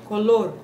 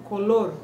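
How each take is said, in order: The two takes are said the same way.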